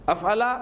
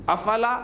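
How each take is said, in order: The two takes are said the same way.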